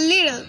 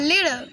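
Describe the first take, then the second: First: The middle consonant is only slightly D-like. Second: The same.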